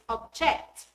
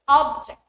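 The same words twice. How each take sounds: First: The stress is on the second syllable. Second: The stress is on the first syllable. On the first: The word is a verb. "the stress falls on the second syllable" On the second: The word is a noun. "The stress falls on the first syllable since the word is a noun"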